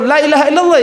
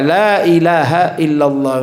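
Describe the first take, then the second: First: The first 'la' has a short vowel. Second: The first 'la' has a lengthened vowel. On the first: It wrongly changes the meaning of the phrase. The speaker calls it wrong. "Kalau dipendekkan lamnya salah" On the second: It keeps the intended meaning of the phrase. The speaker calls it right. "Bacanya dibaca lamnya agak panjang"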